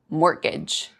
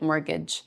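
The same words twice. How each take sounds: First: The word is said in an odd way. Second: The word is said in an ordinary way. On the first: Someone else said it this way. The speaker calls it wrong. "He kept saying it like mortgage" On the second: This is how the speaker says it. The speaker calls it right. "which that's how I would say it"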